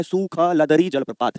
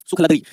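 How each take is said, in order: First: सुखलदरी stretched slowly, syllable by syllable; drawn-out name. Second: Said in the usual way. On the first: Shown as a demonstration. Teacher showing the class a funny waterfall name, drawn out slowly. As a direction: draw out सुखलदरी slowly, part by part.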